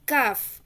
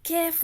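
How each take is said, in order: First: The vowel is a long open 'aa'. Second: The vowel sounds like 'ai' in kite. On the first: The speaker calls it right. "नॉर्मल काफ" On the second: The speaker calls it wrong. "कैफ नहीं पढ़ना"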